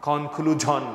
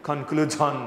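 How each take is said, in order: The two takes are said the same way.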